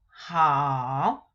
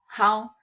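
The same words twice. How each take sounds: First: It is said with the marked tone. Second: It is said without the marked tone. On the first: "because we have accent mark, ... we read as how" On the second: "So how"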